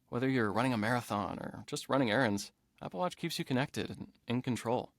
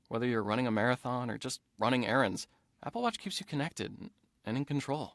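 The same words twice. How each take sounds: First: It is read in a calm, casual way. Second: It is read with more energy and drive.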